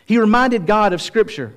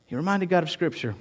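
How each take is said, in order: First: Raised, high-pitched preaching emphasis; emphatic point. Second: Much softer, reflective delivery; hushed repeat. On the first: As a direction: drive the point home with a lifted voice. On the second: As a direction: let the point sink in quietly. Same point repeated hushed. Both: Real, not acted.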